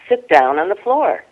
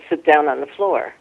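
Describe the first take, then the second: First: It is said in a stern, commanding teacher voice. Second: It is said in an ordinary conversational voice. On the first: It is an order that must be obeyed. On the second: It is a casual request.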